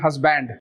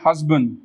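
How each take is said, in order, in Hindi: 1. अंतिम d को ज़ोर से दबाया जाता है। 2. अंतिम d हल्के से बोला जाता है। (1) "ज्यादातर लोग इसको बोलते हैं हस्बैंड" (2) "आप लोग बोलने वाले हैं हस्बैंड"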